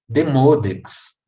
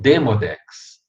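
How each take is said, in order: First: The stress falls on the second syllable. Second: The stress falls on the first syllable. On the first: "a tônica está no M O" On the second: "ou está no D E"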